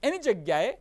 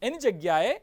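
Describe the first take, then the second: No difference in how they are said.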